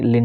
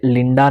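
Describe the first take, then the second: First: लिंड ending in a short, weak "uh"; लिंड with a quick neutral final vowel; schwa ending. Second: लिंडा with a full "aa" at the end; लिंडा said the wrong way, long last vowel. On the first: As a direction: let the last vowel of लिंड shrink to a schwa. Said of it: "इसे अ पढ़ेंगे". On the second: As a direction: sound out the final आ of लिंडा fully. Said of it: "आप इसे लिंडा नहीं". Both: Shown as a demonstration.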